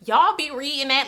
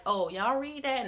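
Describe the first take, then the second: First: Louder, higher, incredulous "Y'all be reading that?"; judgy disbelief. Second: Light, offhand "Oh, y'all read that?" with no judgment; casual mild question. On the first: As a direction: throw out "Y'all be reading that?" in loud shocked judgment. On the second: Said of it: "No, it's not that". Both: Shown as a demonstration.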